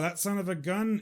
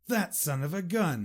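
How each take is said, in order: First: The tone sounds flat and matter-of-fact. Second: The tone sounds pleased and admiring. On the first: The person is simply mentioned. "That's neutral" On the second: The person is admired. "And that's a positive way"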